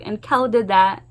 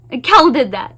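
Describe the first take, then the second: First: Said in the usual way. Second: Kel hit firmly, louder, falling; stress on Kel. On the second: Real, not acted. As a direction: land hard on Kel with a final fall.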